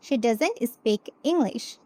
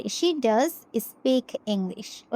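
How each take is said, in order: First: Said in the usual way. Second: "does" pressed in She does speak English; slow, weight on "does"; stress on does. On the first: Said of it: "এখন যদি আমি এই সেন্টেন্সে জোর দিয়ে বলতে চাই". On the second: Shown as a demonstration. Teacher models an emphatic sentence for students. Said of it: "জোর দিয়ে বলতে চাই".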